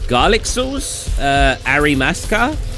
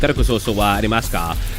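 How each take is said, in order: First: It is said haltingly with a hesitant pause. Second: It is said smoothly and confidently.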